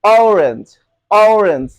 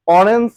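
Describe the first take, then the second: First: Loud, falling "ow-renj" for "অরেঞ্জ"; correct pronunciation. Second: "অরেঞ্জ" with a short plain first vowel; everyday local "অরেঞ্জ"; common pronunciation. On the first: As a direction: stretch the first vowel of "অরেঞ্জ". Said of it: "অরেঞ্জের উচ্চারণ হবে". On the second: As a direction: say "অরেঞ্জ" quickly as "orens", no glide. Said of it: "বলি আমরা". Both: Shown as a demonstration.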